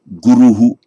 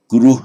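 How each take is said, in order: First: The word ends with an added echo syllable 'hu'. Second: The word ends plainly with no echo vowel. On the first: This is the modern Indian pronunciation. "Modern India, you can say guruhu" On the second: This is the ancient pronunciation. "In ancient times, it would just, even at the end of a word group, it would just have been pronounced guru"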